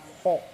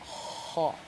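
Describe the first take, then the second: First: The vowel is said with rounded, pushed-out lips. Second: The vowel is said with an open mouth. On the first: The speaker calls it wrong. "Bukan ho" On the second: The speaker calls it right. "ya ho. Dibuka"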